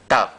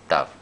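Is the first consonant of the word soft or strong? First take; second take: strong; soft. First: The first consonant is pronounced strongly. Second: The first consonant is pronounced softly. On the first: "Cuando va con puntito dentro suena más fuerte" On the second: "Y cuando va sin puntito más suave"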